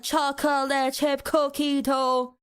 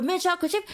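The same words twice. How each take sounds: First: "chocolate chip cookie dough" slow, syllable by syllable; laboured syllables. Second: "mint chocolate chip" quick and higher, lifted at the end; light, quick name. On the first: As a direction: make "chocolate chip cookie dough" sound like hard work. Mocking the long name. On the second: Contrast with laboured cookie dough. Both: Shown as a demonstration.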